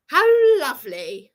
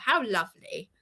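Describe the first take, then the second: First: Bitter laugh. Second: Said in the usual way. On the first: Real, not acted.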